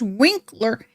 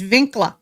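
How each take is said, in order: First: The name is said with plain English sounds. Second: The name is said with German sounds. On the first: The speaker calls it wrong. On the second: The speaker calls it right.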